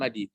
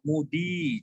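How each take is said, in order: First: The first vowel is an 'a' sound. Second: The first vowel is an 'u' sound. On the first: The speaker calls it wrong. "jangan madi" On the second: The speaker calls it right.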